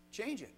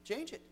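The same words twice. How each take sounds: First: Preacher repeating the order to fix their speech, falling to a close; falling command. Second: "Change it" lifted high and pointed; preacher pressing the boys to fix their speech, rising; rising command. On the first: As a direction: close it down firmly. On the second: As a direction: prod the listener up. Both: Shown as a demonstration. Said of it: "repeated command".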